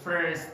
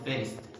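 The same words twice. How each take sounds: First: The R sound is strongly pronounced. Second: The R sound is weak or missing. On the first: The speaker calls it right. "They say first" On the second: The speaker calls it wrong. "instead of first"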